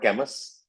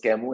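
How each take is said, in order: First: The name is pronounced as it is spelled. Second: The name is not pronounced as it is spelled. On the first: The speaker calls it wrong. "and not Camus" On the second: The speaker calls it right. "it was Camus"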